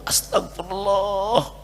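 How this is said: It sounds deeply remorseful and sincere.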